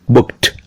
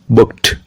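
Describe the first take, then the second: First: The ending is a t sound. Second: The same.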